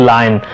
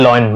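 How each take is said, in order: First: "lion" as LYE-n; "eye" vowel in "lion"; correct pronunciation. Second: "lion" as LOY-n; "oy" vowel in "lion"; wrong pronunciation. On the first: Teacher gives the fix, "lion" said as line. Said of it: "The correct pronunciation is". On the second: Teacher quotes the mistake, "lion" said as loyn. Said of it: "which is wrong". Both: Shown as a demonstration.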